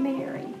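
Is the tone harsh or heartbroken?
heartbroken. It is said gently, with a broken heart.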